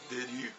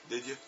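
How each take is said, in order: Both takes have the same delivery.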